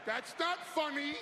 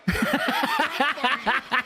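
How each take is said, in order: First: Said in the usual way. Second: Loud laughing repeat; laughing through it. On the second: Real, not acted. [name] laughing at his own firing joke. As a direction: laugh it out, much louder.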